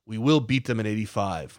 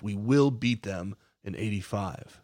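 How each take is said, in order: First: Said in the usual way. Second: Slower, each word weighted, "will" stressed with a falling finish; slow emphatic repeat. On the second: Retold or imitated. Slow, deliberate emphasis on "will". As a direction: narrator repeats Torrance's vow, slower and emphatic. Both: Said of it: "Torrance in his wonderful Scottish brogue".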